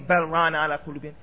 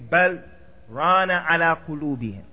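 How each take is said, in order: First: The words run on with no pause after bal. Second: There is a short pause right after bal. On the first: The speaker calls it wrong. "Don't say" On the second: The speaker calls it right. "You say this بَلْ and you have a pause"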